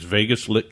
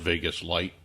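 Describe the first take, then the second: First: The second word has a short 'ih' vowel. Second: The second word has a long 'eye' vowel. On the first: The name is read as it is spelled. "it's Vegas Lit Games. That's how it's uh, shown on the website" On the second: The name was meant as the word light. "meant to call it Vegas Light, L I T, you know, pronouncing it differently"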